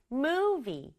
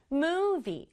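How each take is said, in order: Both takes have the same delivery.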